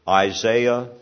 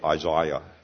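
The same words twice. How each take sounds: First: The name is said with an American pronunciation. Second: The name is said with a British pronunciation.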